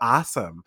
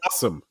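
First: It is said in a Texan accent. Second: It is said in a New Jersey accent. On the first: "Like you guys are like, hey, look at this. This is so awesome. I don't say that" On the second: "I say awesome"

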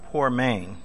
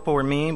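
First: The second syllable sounds like 'main'. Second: The second syllable sounds like 'mean'. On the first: The speaker calls it right. "I looked it up and it's poor main" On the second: The speaker calls it wrong. "I thought it was poor mean"

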